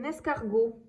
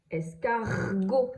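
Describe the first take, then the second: First: Said in the usual way. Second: "Escargot" very slow, the R held long. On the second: Shown as a demonstration. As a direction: stretch out the R inside "Escargot". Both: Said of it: "j'entends bien le R".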